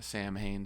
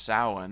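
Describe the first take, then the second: First: It is sounded out as spelled, 'Sam Hain'. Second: It is sounded differently from its spelling. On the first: The speaker calls it wrong. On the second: The speaker calls it right.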